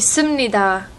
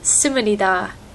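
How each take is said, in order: First: It is said with standard Korean pronunciation. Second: It is said with a Japanese-style accent. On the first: The speaker calls it right. "It should be "simnida,"" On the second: The speaker calls it wrong. "she still speaks like she's speaking Japanese"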